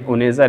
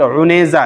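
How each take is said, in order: First: It begins with a plain vowel onset. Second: It begins with a throaty ain sound. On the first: The speaker calls it wrong. "असल हमज़ा से नहीं है, उनेज़ा नहीं" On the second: The speaker calls it right. "ये भी आइन के साथ है, बल्कि उनेज़ा है"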